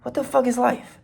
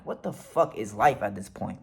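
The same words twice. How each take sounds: First: High, incredulous mock question; amused inner disbelief. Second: Low, soft muttered disbelief; bemused inner voice. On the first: Driver laughing inwardly at police ordeal, high bemused voice. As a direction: pitch it way up, baffled and amused. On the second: Retold or imitated. Driver thinking while following police orders, bemused aside. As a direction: think it aloud, dropped down low. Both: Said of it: "kinda laughing in my head".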